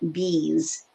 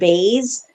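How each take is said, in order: First: The name has the vowel of keys. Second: The name has the vowel of days. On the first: The speaker calls it right. "found out that it's actually um, Furman Bees" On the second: The speaker calls it wrong. "I was pronouncing it Bays"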